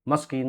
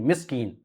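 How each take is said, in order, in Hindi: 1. पहला स्वर 'a' की ध्वनि है। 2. पहला स्वर 'i' की ध्वनि है। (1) "मस्कीन नहीं" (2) "मिस्कीन बिल्कुल सही"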